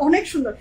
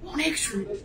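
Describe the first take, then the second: First: Said in the usual way. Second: A soft, quiet imitation of Nahid saying it; imitating Nahid's sweet praise. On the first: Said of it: "যখনই বলে না". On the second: Host imitates Nahid praising the dress, soft and sweet. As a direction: say it softly and sweetly, like Nahid does. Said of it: "nightie কি সুন্দর করে বলে".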